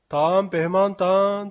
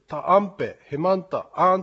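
First: The phrase flows smoothly without breaks. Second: The phrase is broken into choppy separate bits. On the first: The speaker calls it right. "こういう感じの方がよろしいかと思います" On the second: The speaker calls it wrong. "ブツブツブツという感じがする"

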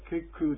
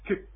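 First: The word ends with an added vowel sound. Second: The word ends in a bare k consonant. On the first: The speaker calls it wrong. "ケクじゃなくて。" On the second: The speaker calls it right. "母音じゃないんですね。子音なんですね。"

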